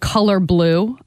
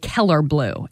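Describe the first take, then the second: First: Color is said with a standard vowel. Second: Color is said like Keller, a Pittsburgh form. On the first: The speaker calls it right. "like the color blue" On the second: The speaker calls it wrong. "I would say the Keller blue"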